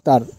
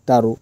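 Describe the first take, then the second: First: The word ends in a consonant sound. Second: The word ends with an added u vowel. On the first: This is the original foreign word. "ବିଦେଶୀ ଶବ୍ଦଟି କ'ଣ ଅଟେ ନା ତାର" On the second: The word is adapted in the Telugu-influenced style. "ତେଲୁଗୁରେ ଅନୁକରଣ କରି କ'ଣ କୁହାଯାଉଛି ନା ତାରୁ"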